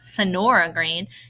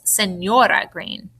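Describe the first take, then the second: First: The middle consonant is a plain n sound. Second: The middle consonant is a ny sound. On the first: The speaker calls it wrong. "It's not Sonora Green" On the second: The speaker calls it right. "it makes that nya, nya sound"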